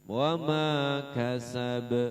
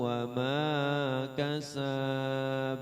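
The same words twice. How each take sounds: First: The final syllable is cut short with a bounce. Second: The final syllable is drawn out long. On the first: The speaker calls it right. "Pendekin aja dulu, langsung qalqalahnya" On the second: The speaker calls it wrong. "jangan dipanjangin kayak gitu"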